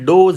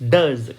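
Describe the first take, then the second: First: The vowel sounds like 'oh'. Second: The vowel sounds like 'uh'. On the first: The speaker calls it wrong. "આને ડોઝ નહીં કહેતા" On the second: The speaker calls it right. "આનો ઉચ્ચાર થશે ડઝ"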